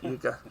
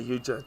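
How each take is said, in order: First: The second syllable starts with a hard 'g' sound. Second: The second syllable starts with a 'j' sound. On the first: The speaker calls it right. "Not Yuga" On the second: The speaker calls it wrong. "I tend to say Yuja, don't I?"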